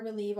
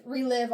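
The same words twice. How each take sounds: First: "relieve" said with a long ee in the second syllable; "relieve" with a long vowel, as a slip; mispronounced relive. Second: "relive" said with a short i in the second syllable; "relive" with a short vowel, as a correction; corrected pronunciation. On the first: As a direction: say "relieve", rhyming with sleeve. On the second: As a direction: say "relive", rhyming with give. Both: Real, not acted. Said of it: "Not relieve".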